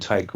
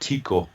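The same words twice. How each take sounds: First: The name is said with an English pronunciation. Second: The name is said with a Swedish pronunciation. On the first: "I'll call him Tycho Brahe for the English listeners" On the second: "we pronounce it Tycho in Swedish"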